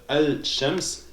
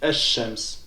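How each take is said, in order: First: The L sound is clearly pronounced before sh. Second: The L merges into a doubled sh sound. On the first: "au lieu de dire Al-Shams" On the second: "j'ai dit Ash-Shams"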